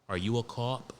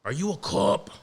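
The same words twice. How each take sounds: First: Said in the usual way. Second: Higher, sneering movie-cop voice; lightly done tough-guy cop accusation; Departed cop impression. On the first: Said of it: "the cop". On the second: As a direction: mimic the scumbag cop from the film intro. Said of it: "with the accent of that fucking scumbag in the intro, the cop".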